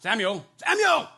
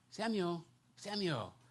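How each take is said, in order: First: It sounds scolding, like someone is in trouble. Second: It sounds tender and affectionate, full of endearment.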